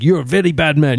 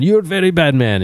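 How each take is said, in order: First: Mock Indian accent. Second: Mock Indian accent, higher. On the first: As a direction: scold him in a hammed-up Indian accent. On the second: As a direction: repeat it even higher in the put-on Indian accent. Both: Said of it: "I said to him with a Indian accent".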